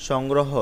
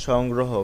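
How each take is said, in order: The two takes are said the same way.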